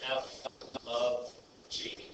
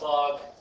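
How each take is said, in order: First: It is said as three words, f of g. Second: It is said as one syllable, fog. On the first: The speaker calls it right. "This is how you pronounce it is f of g" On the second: The speaker calls it wrong. "that's not how you say it"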